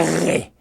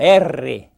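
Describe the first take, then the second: First: The R is made in the throat. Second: The R is made with the tongue tip. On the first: The speaker calls it wrong. "não é para limpar a garganta" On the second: The speaker calls it right. "é lingual"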